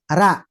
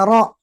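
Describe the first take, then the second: First: The r syllable sounds light and thin. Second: The r syllable sounds heavy and thick. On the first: "kalau ra itu tipis" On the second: "kalau ro itu tebal"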